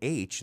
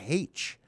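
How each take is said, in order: First: The letter name starts without an h sound. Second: The letter name starts with an h sound. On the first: "Instead of saying H" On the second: "they say it like H"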